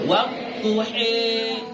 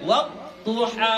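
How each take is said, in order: First: The final vowel is tilted toward an e sound. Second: The final vowel is an open a sound. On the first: This is the imalah reading of certain reciters. "kalau mereka bacanya wadduhi" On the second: This is the common everyday reading. "Kalau kita baca wadduha"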